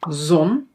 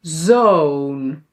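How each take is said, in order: First: "Zon" with a short o; "Zon" said with a quick "aw"; short vowel. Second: "zoon" with a long Dutch oo, like "zone"; "zoon" held long on its vowel. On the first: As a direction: keep the o in "Zon" brief. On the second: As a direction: draw out "zoon" on an "oh". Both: Shown as a demonstration.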